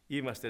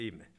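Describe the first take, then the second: First: Said in the usual way. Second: Είμαι said firmly with a falling close; stress on είμαι. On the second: Shown as a demonstration. Preacher corrects himself to own the fault, stressing είμαι. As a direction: correct yourself, landing on είμαι. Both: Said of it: "Είμαι, όχι είμαστε".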